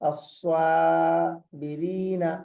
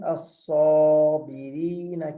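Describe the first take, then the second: First: The long vowel after s sounds thin and light. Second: The long vowel after s sounds heavy and full. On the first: The speaker calls it wrong. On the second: The speaker calls it right.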